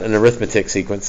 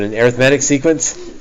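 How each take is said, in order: First: Arithmetic is pronounced as the noun form. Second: Arithmetic is pronounced as the adjective form. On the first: The speaker calls it wrong. "not an arithmetic sequence" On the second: The speaker calls it right. "but an arithmetic sequence"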